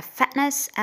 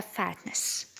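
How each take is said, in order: First: "fatness" with glottal stop for T; American FATNESS. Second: "fatness" with a released T; crisp T before "ness" in "fatness"; British FATNESS. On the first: Teacher repeating American "fatness", glottal-T pronunciation. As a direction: swallow the T: "fa'ness". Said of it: "أمريكان أكسنت هتبقى". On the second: Teacher repeating British "fatness", clear-T pronunciation. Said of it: "في البريتش أكسنت هتبقى". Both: Shown as a demonstration.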